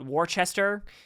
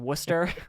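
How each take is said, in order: First: The name is pronounced just as it is spelled. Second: The name is not pronounced as it is spelled. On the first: The speaker calls it wrong. "They call it Worcester. That's how it's spelled" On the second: The speaker calls it right. "it's actually Worcester"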